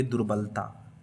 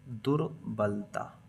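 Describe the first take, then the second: First: Said in the usual way. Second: दुर्बलता drawn out slowly and softly; low-key, stretched-out दुर्बलता; slow dictation. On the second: Shown as a demonstration. Dictating while writing it down.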